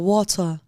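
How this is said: The t is a clear, crisp t sound.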